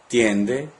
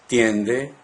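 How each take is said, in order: No difference in how they are said.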